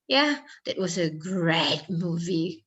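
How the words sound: It is said in a mocking, sarcastic tone. The movie was actually bad. "Itu kan dengan muka yang ngejek gitu"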